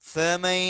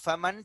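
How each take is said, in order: First: The n merges into a nasalized y glide. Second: The word ends with a clear n sound. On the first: The speaker calls it right. "இந்த நூனை யாவோட இணைச்சி குன்னா செய்யணும்" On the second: The speaker calls it wrong. "இங்க நம்ம ஃபமன் படிக்க கூடாது"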